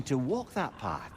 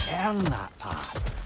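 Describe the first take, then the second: First: Said in the usual way. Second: "Earn" leaned on, slow and deliberate; stress on earn. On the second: Acted. Counselor correcting his word, slow stress on "Earn". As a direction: correct yourself, pressing "Earn" slowly.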